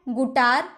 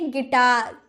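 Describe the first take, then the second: First: An oo vowel follows the g. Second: An ih vowel follows the g. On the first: The speaker calls it wrong. "गुटार नहीं ना" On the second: The speaker calls it right. "तो इसे बोलेंगे गिटार"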